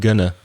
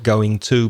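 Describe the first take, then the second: First: The words are reduced and run together. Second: Both words are said fully and clearly. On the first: The speaker calls it right. "We y- make it a weak form, especially the to" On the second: The speaker calls it wrong. "So not going to"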